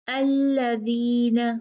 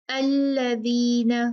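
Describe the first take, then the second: No difference in how they are said.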